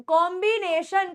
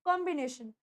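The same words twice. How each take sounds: First: कॉम्बिनेशन broken into stretched, heavy syllables; कॉम्बिनेशन pulled apart, every vowel long; wrong कॉम्बिनेशन. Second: कॉम्बिनेशन as one smooth, softer word; correct कॉम्बिनेशन. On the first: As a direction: overdo each chunk of कॉम्बिनेशन as a mistake to avoid. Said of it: "करके नहीं बोलना". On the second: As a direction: say कॉम्बिनेशन compactly, voice dropping. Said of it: "word को सही तरीके से pronounce कीजिए". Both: Shown as a demonstration.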